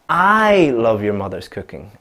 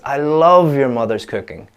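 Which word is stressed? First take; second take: I; love. First: The stress falls on the word I. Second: The stress falls on the word love. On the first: The speaker, not anyone else, loves the cooking. "if I change the stress from love to I" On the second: The speaker really loves the cooking. "if I change the stress from love to I"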